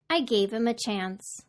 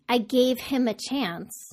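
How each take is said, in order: First: The h in 'him' is dropped entirely. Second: The h in 'him' is clearly pronounced. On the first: "Did you hear that I deleted the H in him?" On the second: "instead of saying"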